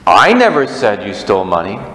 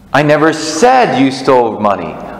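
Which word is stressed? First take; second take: I; said. First: The stress is on "I". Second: The stress is on "said".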